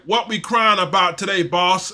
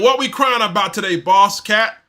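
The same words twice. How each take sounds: First: A hint of a big cat voice. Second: Louder, higher, lightly put-on voice; slave voice. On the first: Streamer reading a super sticker aloud, lightly voiced big cat. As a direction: read it lightly in a put-on cat voice. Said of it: "In my big cat voice". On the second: Streamer rereading a viewer's super sticker, lightly mocking slave voice. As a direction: push the question out loud, lightly in character. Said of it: "S-, in my slave voice".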